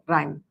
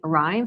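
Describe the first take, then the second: First: The word starts with a d-like r sound. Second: The word starts with a clear r sound. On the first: "sometimes they'll go rhyme. And that r sound sounds a little bit like a D" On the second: "If they're saying rhyme"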